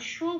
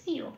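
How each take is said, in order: First: The syllable is said as a plain 'sho'. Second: The syllable is said with a 'y' glide. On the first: This is the Bengali way of saying it. The speaker calls it wrong. "শো বলবো না, যেটা বাংলায় বলি" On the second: This is the Sanskrit way of saying it. The speaker calls it right. "কি বলবো সিও"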